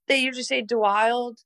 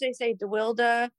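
First: The name is pronounced the English way. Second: The name is pronounced the Dutch way. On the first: This is how English speakers say it. "in like English speaking places, they usually say DeWild" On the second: This is how Dutch speakers say it. "And then Dutch, they say DeWilde"

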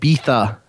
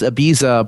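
First: Ibiza is said the British way. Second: Ibiza is said the plain, everyday way. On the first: "the British like to pronounce it Ibiza" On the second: "you would think it's just Ibiza"

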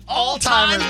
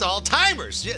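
First: It is said as all-timers, like 'all time'. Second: It is said as alts-heimers, the standard form. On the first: The speaker calls it wrong. "All-timers, man" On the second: The speaker calls it right. "It's Alzheimer's"

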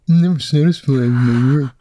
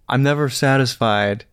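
First: It is said in a mocking put-on voice. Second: It is said in his normal voice.

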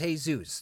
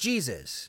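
First: Jesus starts with a Spanish H sound. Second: Jesus starts with an English J sound. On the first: The speaker calls it right. "No, it's Jesus. That's their name, and that's how they enunciate it" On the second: The speaker calls it wrong. "well, that's Jesus"

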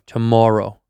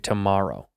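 First: The stressed vowel sounds like 'more'. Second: The stressed vowel sounds like 'mar'.

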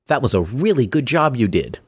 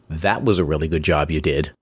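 First: It is said sincerely. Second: It is said sarcastically.

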